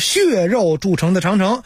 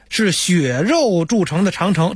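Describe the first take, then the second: First: 血 takes the standard exam reading. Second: 血 takes the old Beijing colloquial reading. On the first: The speaker calls it right. "得是血肉铸成的长城啊" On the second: The speaker calls it wrong. "不能血，是血肉铸成的长城，这是错的"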